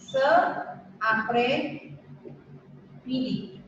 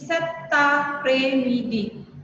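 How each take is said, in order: First: No T sound links into après. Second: A T sound links into après. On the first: "harusnya ini ce après midi" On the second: "muncullah huruf T yang ada di sini, gitu ya. Dibaca dengan set, ininya digabung"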